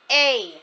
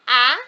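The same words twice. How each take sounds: First: The vowel is said as its letter name. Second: The vowel is said as its short sound. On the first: "the letter says its name" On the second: "which says A for short vowel"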